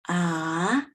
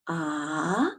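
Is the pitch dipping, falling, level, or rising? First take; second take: rising; rising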